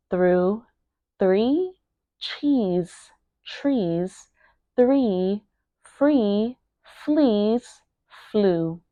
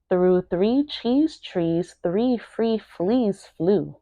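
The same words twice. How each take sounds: First: Each word alone with a pause after. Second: Said in the usual way. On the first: Shown as a demonstration. Teacher modelling a tongue twister for learners, word by word. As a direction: say it word by word, sounding each one carefully. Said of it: "make sure that you are pronouncing each word". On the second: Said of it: "pronouncing each word".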